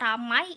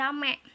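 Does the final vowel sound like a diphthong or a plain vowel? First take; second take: diphthong; plain vowel. First: The word ends in a gliding diphthong. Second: The word ends in a single plain vowel. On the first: "kata ramai" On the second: "diucapkan menjadi rame"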